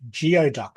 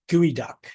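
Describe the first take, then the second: First: The word begins with a 'gee-oh' sound. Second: The word does not begin with 'gee-oh'. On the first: The speaker calls it wrong. "I was just saying it how it is actually spelled" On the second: The speaker calls it right. "Sorry, not geoduck, geoduck"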